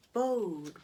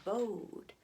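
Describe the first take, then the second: First: Hollow echo calling his name; a ghostly echo says the name; eerie echo. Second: Softer, dying echo of the name; fading echo. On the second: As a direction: let the name fade into the well. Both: Acted. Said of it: "we see an echo down the well".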